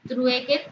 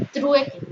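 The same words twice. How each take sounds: First: Said in the usual way. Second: Trueque called out louder and higher, set apart; word announced as a heading. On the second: Shown as a demonstration. (Trueque, anunciada más alta y fuerte, como título)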